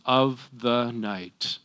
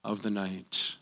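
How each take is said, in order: First: "of the night" drawn out slowly, each word weighed; slow emphatic gloss. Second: "of the night" repeated much softer and lower, almost to himself; quiet echo. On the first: Preacher explaining Delilah's name to the congregation, slow and weighty. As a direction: lay out "of the night" slowly like a definition. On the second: Preacher echoing the name's meaning softly to himself, quiet. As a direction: let "of the night" fall away in a low murmur. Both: Shown as a demonstration. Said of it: "Her name literally means".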